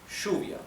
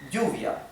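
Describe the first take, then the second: First: The first sound is like English sh. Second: The first sound is like English y.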